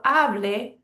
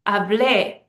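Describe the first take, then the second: First: Slow HA-ble, weight on the first syllable; stress on second-to-last syllable. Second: Hablé with a loud final -BLÉ; stress on last syllable. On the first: Teacher showing the rule, hable stressed on HA. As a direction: draw out HA in hable. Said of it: "that's the second to last syllable". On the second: Teacher showing preterite, Hablé stressed on the last syllable. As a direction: punch the end of Hablé, ha-BLÉ. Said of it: "That's the last syllable is stressed". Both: Shown as a demonstration.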